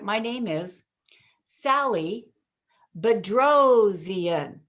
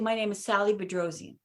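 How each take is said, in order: First: The surname is punched with strong, lively emphasis. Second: The surname is said flatly, without extra emphasis. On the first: The listener remembers and repeats the name. The speaker calls it right. "I would hit the Bedrosian because in punching something, it gives it that musicality, that inflection" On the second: The listener does not catch the name. The speaker calls it wrong. "it's like, what? Didn't get it"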